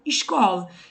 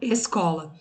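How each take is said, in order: First: The s sounds like a hushing 'sh'. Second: The s sounds like a hissing 's'. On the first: This is how people in Rio say it. "o S pode ser falado com som de X" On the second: This is how people from Minas Gerais and São Paulo say it. "o S pode ser falado com som de S"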